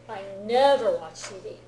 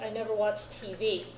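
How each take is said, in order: First: The word 'never' is stressed. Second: The word 'never' is not stressed.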